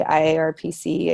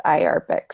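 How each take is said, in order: First: "I A R P C" said letter by letter; spelled out. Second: "I arpic" said as "eye-ARR-pick"; said as a word. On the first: Presenter showing the harder way some say it, "I A R P C" letter by letter. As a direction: spell out "I A R P C" as five separate letters. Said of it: "Some people try to say". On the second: Presenter teaching newcomers the committee's acronym, "I arpic" said as a word. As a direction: pronounce "I arpic" as one word, not letters. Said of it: "it's pronounced I arpic". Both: Shown as a demonstration.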